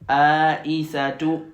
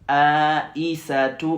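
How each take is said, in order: No difference in how they are said.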